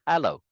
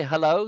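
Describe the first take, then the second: First: "hello" with an open "ha" start, like HAL-oh; falling "hello", first vowel wide as in "hat"; Norma's hello. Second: "hello" with a weak, unstressed first syllable; plain "huh-LOH" for "hello"; usual hello. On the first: Retold or imitated. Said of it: "She says hello". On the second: Shown as a demonstration. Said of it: "Norma doesn't say hello. She says".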